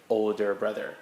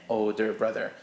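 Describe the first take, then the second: Both takes have the same delivery.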